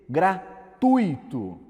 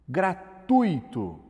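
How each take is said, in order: The two takes are said the same way.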